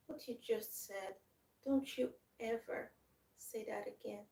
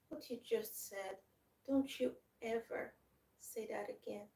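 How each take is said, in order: First: It is said in a weak, tearful way. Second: It is said in a weak, tearful way.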